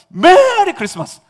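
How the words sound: It is said excitedly, starting high.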